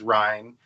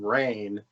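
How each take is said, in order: First: The name sounds like Ryan. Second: The name sounds like Rain. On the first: The speaker calls it right. "how in the world would you not think this character's name is Ryan?" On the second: The speaker calls it wrong. "they call Ryan Rain"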